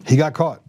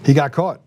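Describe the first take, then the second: No difference in how they are said.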